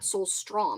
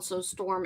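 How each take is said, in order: First: The second part sounds like 'strom'. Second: The second part sounds like 'storm'. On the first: The speaker calls it wrong. "and not Soulstrom" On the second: The speaker calls it right. "I think it's called Soulstorm"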